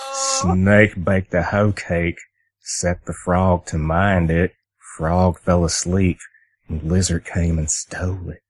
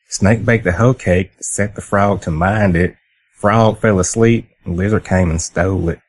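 First: It is said in a more menacing, threatening way. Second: It is said in a plain, less threatening way.

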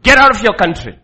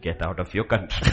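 First: The phrase is shouted loudly. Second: The phrase is said calmly and softly. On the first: A harsh command in an angry manner. The speaker calls it wrong. "He didn't say like my tone" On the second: A gentle command without anger. The speaker calls it right. "God never shouts at his children"

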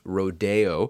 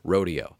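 First: The word has a French-style pronunciation. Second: The word has an American-style pronunciation. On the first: "you may have heard it pronounced Rodeo, which it was fashionable at one time to use the French pronunciation" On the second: "I will stick with the American Rodeo"

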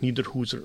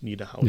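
First: The middle vowel is a long Swiss 'oo' sound. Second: The middle vowel is a standard German 'ow' sound. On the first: The speaker is talking to someone from the region. "da verwendet man eben den regionalen Akzent" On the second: The speaker is talking to someone from outside the region. "und nicht Niederhauser"

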